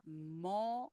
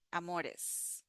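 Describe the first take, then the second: First: "Amores" softly broken into a, mo, res; syllable by syllable. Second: Said in the usual way. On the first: Shown as a demonstration. Teacher breaking amores down for learners, syllable by syllable. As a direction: pause between each syllable of "Amores". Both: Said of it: "here the R is like the flap T".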